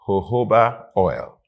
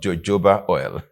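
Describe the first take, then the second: First: The word begins with an H sound. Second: The word begins with a J sound. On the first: The speaker calls it right. "it is pronounced jojoba oil, The J is pronounced as H" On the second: The speaker calls it wrong. "not jojoba oil"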